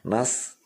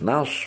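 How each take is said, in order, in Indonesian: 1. Diucapkan dengan bibir direntangkan, seperti menyeringai. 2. Diucapkan dengan bibir dibulatkan, dimonyongkan ke depan. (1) "kalau beringis jelas salah" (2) "mencucu dulu"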